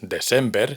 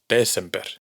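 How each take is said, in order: First: The stress is on the second syllable. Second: The stress is on the first syllable. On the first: The speaker calls it wrong. "no es December" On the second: The speaker calls it right. "sino Desember"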